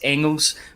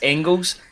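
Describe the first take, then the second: First: The G sound in the name is silent. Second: The G sound in the name is pronounced. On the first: This is the version used by the player himself. The speaker calls it right. "you don't pronounce the G" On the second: This is the common version people use. The speaker calls it wrong. "people have been saying it's Engels"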